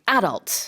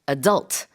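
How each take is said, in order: First: It is said with a British pronunciation. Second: It is said with a North American pronunciation. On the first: "And in England, they say adult" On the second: "In North America, they say adult"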